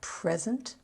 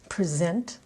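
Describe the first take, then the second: First: The stress is on the first syllable. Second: The stress is on the second syllable. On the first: It is the noun, meaning a gift. "the noun, accent on the first syllable" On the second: It is the verb, meaning to give or show. "verb, accent on the second syllable"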